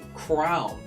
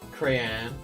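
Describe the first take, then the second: First: The word sounds like crown. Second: The word sounds like cray-on. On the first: "Some people say crown in some sections of the U S. Those people are just wrong" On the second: "There's some people that pronounce it crayon"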